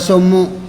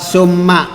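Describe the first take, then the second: First: The word ends with a u vowel. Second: The word ends with an a vowel. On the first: The speaker calls it wrong. "tidak boleh membaca summu" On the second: The speaker calls it right. "Mabni fatah"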